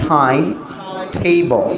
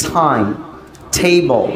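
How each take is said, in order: The two takes are said the same way.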